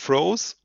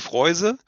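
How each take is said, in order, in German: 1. Der Vokal ist ein langes oh. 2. Der Vokal ist ein gleitendes oi. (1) "in Kanada sagen sie" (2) "in Kuba sagen sie"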